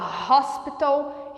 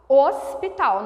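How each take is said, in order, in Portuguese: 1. A palavra começa com um som de H que se ouve. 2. A palavra começa sem som de H. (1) "Em inglês a gente fala hospital" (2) "nós não pronunciamos o H"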